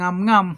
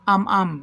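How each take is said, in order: First: Each syllable starts with an ng sound. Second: Each syllable starts directly with a vowel. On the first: This is how it reads from the letters. "kung babasahin po natin yan" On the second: This is how native speakers actually say it. "when you're listening to Cantonese people"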